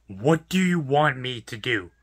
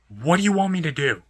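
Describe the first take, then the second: First: Slow, deliberate, spelled-out question; slow exasperation. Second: Said in the usual way. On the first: Real, not acted. Worker asking the customer what he can possibly do, slowly exasperated. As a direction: draw each word out in exasperation.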